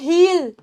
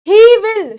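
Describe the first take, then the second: First: It is said as one contracted syllable. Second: It is said as two full words.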